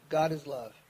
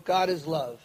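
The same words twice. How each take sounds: First: The mantra repeated softer and lower, fading off. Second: Said in the usual way. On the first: Retold or imitated. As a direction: let the second "God is love" drop away as if drifting to sleep. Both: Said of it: "just lay there and go".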